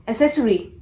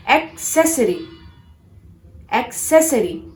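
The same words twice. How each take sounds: First: "Accessory" as uh-SESS-uh-ree; "Accessory" with just an S in the middle; mispronounced accessory. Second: "accessory" as ek-SESS-uh-ree; "accessory" split after a clear EK; correct accessory. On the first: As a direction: drop the K sound from "Accessory". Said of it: "No, that's wrong". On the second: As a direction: sound the K, then SESS, in "accessory". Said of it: "pronounce this word as". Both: Shown as a demonstration.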